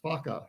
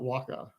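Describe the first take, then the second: First: The word begins with an F sound. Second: The word begins with a W sound. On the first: The speaker calls it right. "W H is pronounced as an F" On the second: The speaker calls it wrong. "not as a W"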